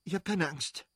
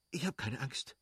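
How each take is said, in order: First: Higher, pressed insisting; hurried reassurance. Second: Soft, quick brave words; hurried reassurance. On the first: Kitty insists to Levin she is not afraid, higher and pressed. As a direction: insist you are fine while fear rises. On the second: Kitty tells Levin she is not afraid, soft and quick. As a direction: try to sound unafraid. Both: Acted. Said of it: "stieß sie rasch hervor".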